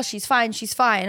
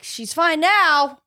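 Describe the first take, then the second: First: Said in the usual way. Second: "now" higher and drawn out slowly; stressed "now". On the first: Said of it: "everyone's like". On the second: Retold or imitated. Owner doubting the vet's reassurance, dragging out "now". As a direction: lean on "now" with slow doubt. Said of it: "I'm like".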